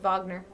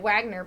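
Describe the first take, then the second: First: The name is said with a German pronunciation. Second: The name is said with an English pronunciation. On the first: This is how the name was originally said. "they have like German history in their family, and it would have at one point been pronounced Wagner" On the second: This is how the family's name was said locally. "we pronounced it Wagner"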